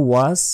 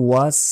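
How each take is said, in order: Both takes have the same delivery.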